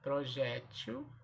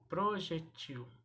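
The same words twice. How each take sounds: First: "Projétil" slowly, pro-JÉ-til; stress on middle syllable. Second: "projetil" slowly, pro-je-TIL; final TIL of "projetil" stressed; stress on last syllable. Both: Shown as a demonstration. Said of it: "As duas formas são corretas".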